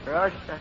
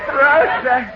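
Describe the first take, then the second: First: It is said flatly, without feeling. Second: It is said with strong feeling.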